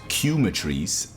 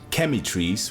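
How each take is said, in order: First: It does not begin like chemistry. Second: It begins like the word chemistry. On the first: The speaker calls it wrong. "which was Cumetries" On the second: The speaker calls it right. "which kind of sounds like chemistry"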